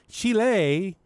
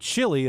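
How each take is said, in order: First: It is said with a local, non-American pronunciation. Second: It is said with an American pronunciation.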